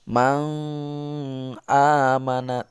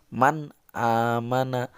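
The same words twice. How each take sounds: First: The n sound is blurred and not clear. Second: The n sound is pronounced clearly. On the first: The speaker calls it wrong. "tidak begitu" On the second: The speaker calls it right. "nun matinya jelas dibaca"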